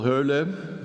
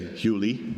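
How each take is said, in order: First: The surname is pronounced with Dutch sounds. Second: The surname is pronounced with American sounds.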